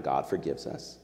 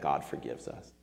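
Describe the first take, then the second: First: Said in the usual way. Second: Much softer and lower, set apart; hushed key truth. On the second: Shown as a demonstration. Preacher giving the sermon's main point, hushed. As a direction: drop the voice to land the point.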